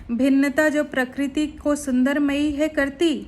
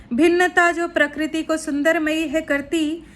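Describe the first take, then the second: The two takes are said the same way.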